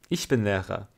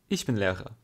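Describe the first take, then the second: Both takes have the same delivery.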